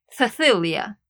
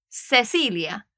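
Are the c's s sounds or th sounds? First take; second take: th sound; s sound. First: Spain accent, the c's sound like th. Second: Latin American accent, the c's sound like s.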